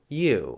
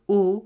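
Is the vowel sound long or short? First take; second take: long; short. First: The vowel is long and glides. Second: The vowel is short and plain.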